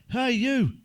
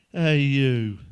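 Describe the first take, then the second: First: Loud call across the street; shout. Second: Said in the usual way. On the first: Retold or imitated. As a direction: shout after him, loud. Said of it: "I shouted". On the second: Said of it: "repeats punchline plainly".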